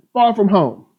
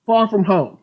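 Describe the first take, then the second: No difference in how they are said.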